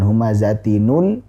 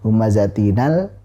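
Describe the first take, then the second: First: The n is followed by a u vowel. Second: The n is followed by an a vowel.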